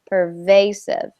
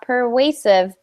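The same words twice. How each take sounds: First: The middle consonant is a buzzing V. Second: The middle consonant sounds like a W. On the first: The speaker calls it right. "We want that vibration" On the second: The speaker calls it wrong. "So not pervasive"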